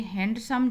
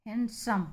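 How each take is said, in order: First: हैंडसम with the D sounded, 'hand-sum'; wrong pronunciation. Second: हैंडसम as 'han-sum', D silent; correct pronunciation. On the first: Teacher shows the ad's familiar form, D pronounced. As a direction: keep an audible D in हैंडसम. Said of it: "वो हैंडसम नहीं होता है". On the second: Teacher models the right reading, D silent. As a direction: drop the D, N straight into S in हैंडसम. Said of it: "इसको हम पढ़ते हैं". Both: Shown as a demonstration.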